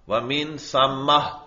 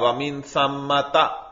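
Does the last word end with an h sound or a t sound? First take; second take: h sound; t sound. First: The word ends with a soft h sound. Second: The word ends with a t sound and vowel. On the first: "हालत वक्फ में हा से बदल जाती है" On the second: "उस पर भी जबर पड़ते हैं सम्मता"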